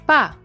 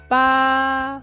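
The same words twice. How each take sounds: First: The pitch falls from high to low. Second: The pitch stays high and level. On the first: It means dead. "The fourth tone, high to the bottom" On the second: It means eight. "The first tone high and flat"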